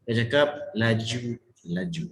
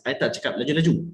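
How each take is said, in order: First: Slow "laju... laju", each word set apart; slowed, distinct words. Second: "laju-laju" run together quickly; quick talk. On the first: Coach shows firm speed, "laju-laju" slow and separated. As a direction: lower "laju-laju", drawn out syllable by syllable. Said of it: "I perlahankan sedikit supaya dia nampak". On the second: Coach shows how not to speak, "laju-laju" said quickly. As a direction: rattle off "laju-laju" in one breath. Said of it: "bermain dengan speed cara you bercakap". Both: Shown as a demonstration.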